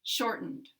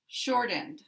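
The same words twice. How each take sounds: First: "Shortened" with the second syllable reduced to schwa. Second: "Short end" with a full eh in end; full vowel. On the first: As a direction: stress short and weaken the ending of "Shortened". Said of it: "schwa can be in an unstressed syllable". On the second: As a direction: keep end clear and unreduced in "Short end". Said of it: "full word here with the full vowel". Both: Shown as a demonstration.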